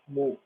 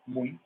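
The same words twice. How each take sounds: First: "muito" broken into three syllables, mu-I-to; wrongly split vowels. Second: "Muito" with u and i glided together, MUI-to; diphthong in one syllable. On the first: Teacher showing what nobody says, "muito" as mu-I-to. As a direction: separate u from stressed i in "muito": mu-I-to. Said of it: "A gente não fala muito". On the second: Teacher demonstrating a diphthong, "Muito" as MUI-to. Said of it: "estão na mesma sílaba". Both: Shown as a demonstration.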